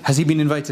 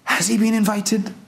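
First: It sounds like a doubtful, checking question. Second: It sounds like an amazed, wondering exclamation.

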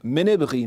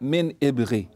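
First: The glottal stop is dropped; the words run together. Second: The glottal stop is pronounced between the two words. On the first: This keeps the rhythm of the poem. The speaker calls it right. "So, مِنْ إِبْغِي" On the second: This breaks the rhythm of the poem. The speaker calls it wrong. "not مِنْ إِبْغِي"

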